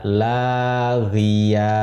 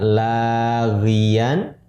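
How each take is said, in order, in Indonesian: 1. Kata laghiyan berakhir dengan vokal terbuka. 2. Kata laghiyan berakhir dengan bunyi n. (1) "Ketika wakaf, kita membaca laghiya" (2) "Dibaca laghiyan"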